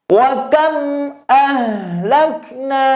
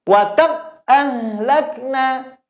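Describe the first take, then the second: First: High chanted WA KAM with a short hum on M; slight lingering mim. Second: High chant, KAM cut dead at the M; wrong take, WA KAM with the M chopped off; mim stopped abruptly. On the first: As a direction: recite slowly, leaving a trace of sound in KAM's M. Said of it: "perhatikan lagi". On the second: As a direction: shut KAM instantly with no hum. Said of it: "Tidak langsung berhenti "wa kam". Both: Shown as a demonstration.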